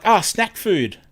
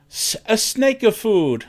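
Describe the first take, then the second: First: "snack" said with a short a, /snæk/; "snack food" with the a as in cat. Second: "snake of food" with a long a, /sneɪk ʌv fud/; accented "snake of food", higher and slow. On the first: Shown as a demonstration. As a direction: say "snack food" as "snack", not "snake". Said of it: "the guy was asking for snack food". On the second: Retold or imitated. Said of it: "really heavy, heavy accent".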